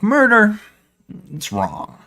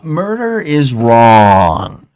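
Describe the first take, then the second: First: It is said at normal volume. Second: It is said louder.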